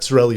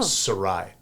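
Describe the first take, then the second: First: The name has an Americanized pronunciation. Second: The name sounds like the end of Versailles. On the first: The speaker calls it wrong. "it's not pronounced the right way. It's uh, Americanized" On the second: The speaker calls it right. "If you like the Treaty of Versailles"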